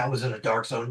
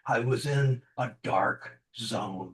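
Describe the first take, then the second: First: It is said at a normal pace and voice. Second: It is said slowly in a lowered voice.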